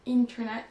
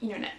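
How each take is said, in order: First: The T after the N is clearly pronounced. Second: The T after the N is dropped. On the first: "Au lieu de dire internet" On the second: "certains Américains vont dire internet"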